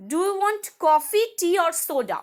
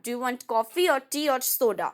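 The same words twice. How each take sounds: First: "coffee" rising higher and louder, then "soda?" falling to close the choice; choice question list. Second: Said in the usual way. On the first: Shown as a demonstration. Teacher reading a coffee, tea or soda example to students, then the tune. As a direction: list the options with a rise and a final fall. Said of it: "For example". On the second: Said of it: "Which one do you want?".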